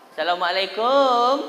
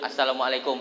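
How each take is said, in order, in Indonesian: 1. Suku kata terakhir kum dipanjangkan. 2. Suku kata terakhir kum tetap diucapkan pendek. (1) "Ini ada orang kumnya dipanjangkannya" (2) "Yang betul tuh assalamualaikum"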